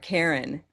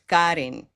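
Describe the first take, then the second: First: The name is said with English sounds. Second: The name is said with Spanish sounds. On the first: This is how the name is said at home. "my name is no longer Karen" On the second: This helps Spanish speakers understand the name easily. "I need to change it a little bit to match the sounds around me"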